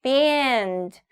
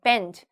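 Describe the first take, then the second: First: "band" with a drawn-out vowel; long vowel. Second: "band" cut short like "bend"; short, mistaken "band" sounding like bend; short vowel. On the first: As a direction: stretch it slowly, "baaand". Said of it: "길게". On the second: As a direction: say "band" quickly with a brief vowel. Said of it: "짧게". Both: Shown as a demonstration.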